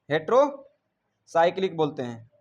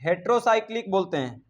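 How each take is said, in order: First: heterocyclic spelled out slowly, syllable by syllable; a teacher slowly repeating heterocyclic for the class. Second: Said in the usual way. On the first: Shown as a demonstration. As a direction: drag heterocyclic out slowly so students catch each part. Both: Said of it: "अंग्रेजी में इसे कहते हैं बाबू hetero".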